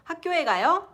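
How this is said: The voice rises at the end. It asks whether the listener is going to school. "You just raise the intonation, and that's a question"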